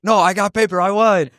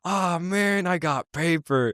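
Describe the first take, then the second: First: High-pitched insistent winner; mock triumph. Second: Slow, softer, high-pitched letdown; mock disappointment. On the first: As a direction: play the kid eagerly claiming victory. Acted kid claiming the win. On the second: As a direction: play the kid who just lost, dragging it out. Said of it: "the other guy's like".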